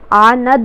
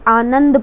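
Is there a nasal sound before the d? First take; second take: no; yes. First: There is no nasal sound before the d. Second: There is a nasal sound before the d. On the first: The speaker calls it wrong. "आनंद नहीं पढ़ते" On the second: The speaker calls it right. "आनंद पढ़ते हैं"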